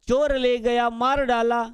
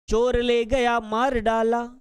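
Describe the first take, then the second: Both takes have the same delivery.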